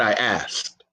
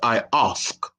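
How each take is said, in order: First: It is said in his ordinary everyday accent. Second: It is said in a posh British accent.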